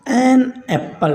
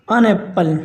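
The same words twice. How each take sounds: First: एन apple with एन said as a full ए sound, stressing the next word; highlighted an. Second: अन Apple with a short unstressed अन, simple flow; short neutral an. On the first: Teacher demonstrates the highlighting article to students. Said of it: "आप उसके आगे ए बोलेंगे तो highlight होगा". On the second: Teacher shows students the normal unstressed article. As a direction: say अन Apple lightly and plainly. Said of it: "normal चलेगा". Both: Shown as a demonstration.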